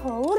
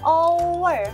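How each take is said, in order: First: The word begins with an audible h sound. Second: The word begins directly with a vowel sound. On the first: The speaker calls it wrong. "bacanya bukan hour ya" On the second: The speaker calls it right. "tapi apa? Hour"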